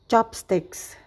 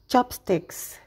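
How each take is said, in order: No difference in how they are said.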